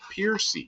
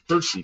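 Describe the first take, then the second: First: The first syllable sounds like 'pier'. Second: The first syllable sounds like 'purr'. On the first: This is how the name's owner said it. "he pronounced it Piercy" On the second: This is how the name is usually said from its spelling. "it looked just like that"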